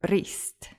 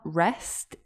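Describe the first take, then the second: First: The vowel is a close 'ee' sound. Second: The vowel is an open 'eh' sound. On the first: The speaker calls it right. "it's rist, with an I" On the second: The speaker calls it wrong. "it's not rest"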